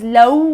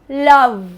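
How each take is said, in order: First: The final V is weak, without a bitten lip. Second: The final V is clearly bitten with the lip. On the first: The speaker calls it wrong. "is not pronounced as love" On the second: The speaker calls it right. "It's love. Remember, it has a V"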